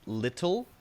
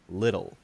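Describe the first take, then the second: First: The middle sound is a crisp T. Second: The middle sound is a soft D. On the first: The speaker calls it wrong. "which is the technically correct pronunciation, but unfortunately, nobody says it like that" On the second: The speaker calls it right. "The way that you soften the T sound to a very light D sound"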